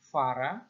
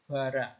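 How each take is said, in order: First: The word begins with a soft fricative sound. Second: The word begins with a hard stop sound. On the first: The speaker calls it wrong. "bukan fara" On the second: The speaker calls it right. "tapi bara"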